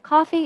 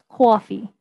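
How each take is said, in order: First: The vowel is said without strong lip rounding. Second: The vowel is said with strong lip rounding. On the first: "instead of" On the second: "So very rounded vowels"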